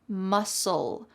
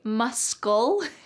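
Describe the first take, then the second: First: No k sound is heard after the s. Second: A k sound is heard after the s. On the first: The speaker calls it right. "Notice that the C in the word muscle is silent" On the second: The speaker calls it wrong. "Do not say muscle"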